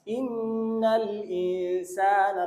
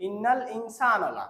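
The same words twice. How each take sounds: First: ইন্নাল ইনসানা very slow, nasal 'n' held long; correct elongation. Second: ইন্নাল ইনসানা run through without holding the 'n'; common misreading. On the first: Shown as a demonstration. Teacher modelling the verse opening, slowly chanted. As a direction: stretch the 'n' sounds and long vowel in ইনসানা. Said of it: "কিন্তু এরকম না". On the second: Retold or imitated. Teacher showing how we wrongly read it, unstretched. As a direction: cut the nasal hold short in ইনসানা. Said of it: "আমরা পড়ি".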